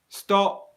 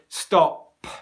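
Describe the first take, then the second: First: The final P releases only a little air. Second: The final P is released with a strong burst. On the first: The speaker calls it right. "where a little bit of airflow comes out, but not a lot" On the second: The speaker calls it wrong. "But I do not say stop"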